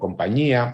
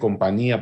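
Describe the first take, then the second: First: The middle nasal is a palatal ñ. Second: The middle nasal is a plain n. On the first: This is the standard pronunciation. "por compañía" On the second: This is the regional nineteenth-century pronunciation.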